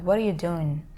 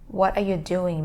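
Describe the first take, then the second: First: The words are merged into one reduced stretch. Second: Each word is said separately and fully.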